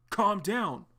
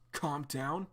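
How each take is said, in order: First: Higher, louder firm command with a falling end; forceful calm down. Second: Arlo holding John back, gently pleading; soothing calm down. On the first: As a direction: order him to stop. Arlo restraining John. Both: Acted.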